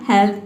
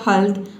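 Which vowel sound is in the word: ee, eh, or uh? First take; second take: eh; uh. First: The vowel is said as a short eh. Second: The vowel is said as a short uh. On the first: "पहले आपने pronounce किया हेल्थ" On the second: "फिर आपने pronounce किया हेल्थ"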